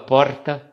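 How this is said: It is said with a tapped R at the front. "o paulistano fala porta, vibrando R aqui na frente"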